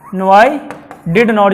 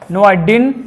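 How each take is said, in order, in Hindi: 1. दोनों शब्द पूरे और अलग-अलग बोले जाते हैं। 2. ये शब्द छोटे होकर एक ही छोटे सिलेबल में बोले जाते हैं।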